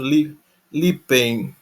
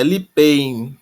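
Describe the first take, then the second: First: "lipen" said slowly with a false start on "Li-", ending in a nasal -en; hesitant slow "Li-, lipen", ending on -en; mistaken form. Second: "lipein" said slowly, ending in the diphthong -ein; corrected form. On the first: Teacher slowly offering the infinitive he later corrects. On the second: Teacher correcting himself to the right aorist infinitive, slowly. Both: Shown as a demonstration. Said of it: "perdão".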